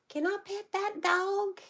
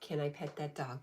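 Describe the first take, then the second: First: It is said imitating the voice of that kid. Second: It is said in the speaker's normal voice.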